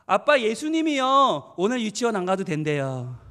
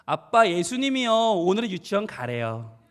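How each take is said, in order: First: Put-on slow, drawn-out child's report, loud at first; cheeky little child. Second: Lightly voiced child, drawn out at the end; obedient little child. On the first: Child telling dad what Jesus said, cheekily. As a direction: imitate a child slyly announcing good news. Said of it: "얼마나 얄미워요". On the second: Child telling dad Jesus says go, resigned. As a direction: imitate a child dutifully reporting to dad. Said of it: "아이가 눈을 떴어요".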